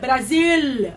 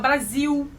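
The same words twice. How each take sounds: First: The word ends in a clear l sound. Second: The word ends in a u sound. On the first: It is the form speakers cannot manage. "não conseguir falar é, é, el, Brasil" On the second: It is how speakers actually say it. "A gente fala Brasil"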